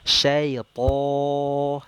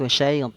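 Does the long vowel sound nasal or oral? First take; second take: oral; nasal. First: The long vowel stays out of the nose. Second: The long vowel goes through the nose. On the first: The speaker calls it right. "Harusnya kan syaiton" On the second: The speaker calls it wrong. "ini masih nyangkut masuk ke hidung"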